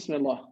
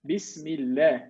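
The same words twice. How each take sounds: First: The l is heavy and thick, mouth rounded. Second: The l is light and thin, lips flat. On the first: The speaker calls it wrong. "So you don't say" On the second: The speaker calls it right. "thin, thinner sound, not thick sound"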